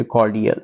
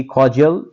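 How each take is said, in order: First: کارڈیل said the British way, hard d sound, kor-di-ul; teacher models کارڈیل as kor-di-ul; British pronunciation. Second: Teacher models کارڈیل as kor-jul; American pronunciation. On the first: Teacher showing students the British way, carefully pronounced. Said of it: "اگر ہم British لے لیں". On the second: Teacher showing students the American way, carefully pronounced. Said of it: "اگر ہم American pronunciation لیں". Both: Shown as a demonstration.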